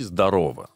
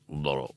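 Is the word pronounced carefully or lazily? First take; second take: careful; lazy. First: The word is pronounced fully, with every syllable clear. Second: The word is mumbled lazily, with syllables swallowed. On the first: "даже лень произнести «здорово»" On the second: "а это просто «здорово»"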